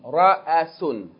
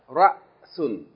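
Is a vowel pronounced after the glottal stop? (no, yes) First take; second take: yes; no. First: A vowel is sounded after the glottal stop. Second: The glottal stop has no vowel after it. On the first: "if it has a vowel, we're going to pronounce the vowel" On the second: "if it has no vowel, it's just a stop"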